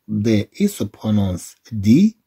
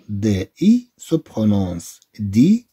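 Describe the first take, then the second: No difference in how they are said.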